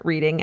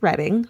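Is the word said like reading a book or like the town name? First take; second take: book word; town name. First: It is said the way book reading sounds. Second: It is said the way the town name sounds. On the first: It means reading books. The speaker calls it wrong. "rather than reading as in books" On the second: It names the town. The speaker calls it right. "pronounced Reading"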